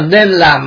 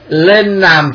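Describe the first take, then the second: First: The first word begins with an N sound. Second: The first word begins with an L sound. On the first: The speaker calls it right. "tức là nên làm" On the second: The speaker calls it wrong. "nói ngọng lên làm"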